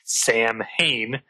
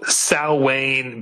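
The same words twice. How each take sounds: First: The name is said like 'sam-hain'. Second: The name is said like 'sow-in'. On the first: The speaker calls it wrong. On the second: The speaker calls it right.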